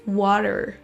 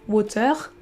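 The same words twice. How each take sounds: First: The ending has a schwa and American R. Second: The ending has a French-style R. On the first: The speaker calls it right. "un son schwa suivi d'un R, mais pas un R à la française" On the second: The speaker calls it wrong. "On ne dit pas water"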